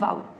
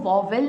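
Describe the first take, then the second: First: It is said as one gliding syllable, vaul. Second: It is said with two clear syllables, vo-vel. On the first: The speaker calls it right. "इसका correct pronunciation होता है वाउल" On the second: The speaker calls it wrong. "हम इसको वॉवेल नहीं बोलेंगे"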